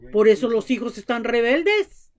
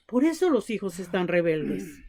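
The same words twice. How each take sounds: First: Said in the usual way. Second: Softer, lower repeat leaning on eso; preacher repeats the point softly; quiet emphasis. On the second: Real, not acted. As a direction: drive it home quietly with weight on eso.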